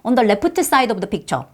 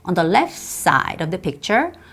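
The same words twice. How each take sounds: First: The T in 'left' is clearly pronounced. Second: The T in 'left' is dropped. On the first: The speaker calls it wrong. "굳이 T 발음 하려고 그러는데" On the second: The speaker calls it right. "T 발음 안 하니까 훨씬 부드럽죠"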